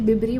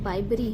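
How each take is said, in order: First: The first syllable sounds like 'bib'. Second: The first syllable sounds like 'bye'. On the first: The speaker calls it wrong. "मैं तो पहले बिबरी बोलती थी" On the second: The speaker calls it right. "बाइबरी है"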